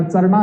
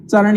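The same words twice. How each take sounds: First: "चरणा" said with a long final aa, the wrong way; wrong form. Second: "चरण" ending short on ण, no aa; correct form. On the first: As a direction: stretch the end of "चरणा" into aa. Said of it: "चरणा नहीं होता". ("चरणा" अंत में लंबे आ के साथ, गलत रूप) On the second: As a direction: clip "चरण" off cleanly after ण. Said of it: "चरण ही होता है". ("चरण" बिना आ के, सही उच्चारण) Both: Shown as a demonstration.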